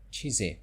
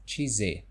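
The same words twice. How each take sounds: The two takes are said the same way.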